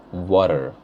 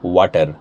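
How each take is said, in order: First: "water" with a soft t and rounded r; American pronunciation. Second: "water" with a hard, curled-back t; Indian pronunciation. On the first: Teacher contrasting accents, softer American "water". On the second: Teacher contrasting accents, Indian hard t in "water". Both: Shown as a demonstration. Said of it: "see how it changes".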